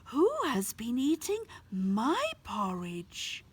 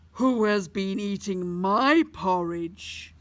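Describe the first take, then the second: First: It is spoken in a medium-volume voice. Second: It is spoken in a very loud voice. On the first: "said in a medium-sized voice" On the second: "said in a very loud voice"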